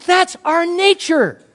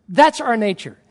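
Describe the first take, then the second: First: Loud, slow and high proclamation; emphatic declaration. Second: Said in the usual way. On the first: Real, not acted. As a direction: drive the point home, drawn out and raised. Preacher drives the point home.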